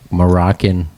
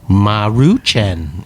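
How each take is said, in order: First: It is said like the word Moroccan. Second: It is said as Maruchan, each syllable marked. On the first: The speaker calls it wrong. "I used to always call it like Moroccan" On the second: The speaker calls it right. "how they pronounced it... like at each syllable"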